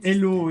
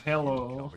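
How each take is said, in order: First: "hello" said as "'ello", with no H; dropped H. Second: Said in the usual way. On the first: Shown as a demonstration. Explaining French-accented English, dropped H. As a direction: leave the H off "hello", French-style. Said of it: "say hello instead of hello". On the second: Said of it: "instead of hello".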